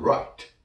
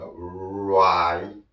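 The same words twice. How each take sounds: First: "right" said short and quick; quick demo. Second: "right" stretched out, long rolled-in r and held vowel; drawn-out demo. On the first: Teacher shows learners the fast form, quick demo. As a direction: say "right" in one quick beat with a released t. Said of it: "빨리 하면". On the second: Teacher models right for learners, drawn-out demo. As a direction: draw "right" out slowly, releasing the final t separately. Slow model before the fast take. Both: Shown as a demonstration.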